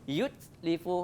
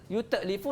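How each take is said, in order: First: The t is closed flat without a bounce. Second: The t is released with a bounce. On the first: The speaker calls it right. "betul yutlifu. Tak ada mantul" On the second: The speaker calls it wrong. "Kalau kita sebut yut yutlifu jadi salah"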